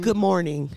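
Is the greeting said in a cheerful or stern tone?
stern. The greeting sounds stern and serious. The speaker is being firm and not accommodating. "And it was stern"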